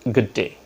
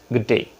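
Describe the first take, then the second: First: Said with a native-speaker accent. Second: Said with a native-speaker accent.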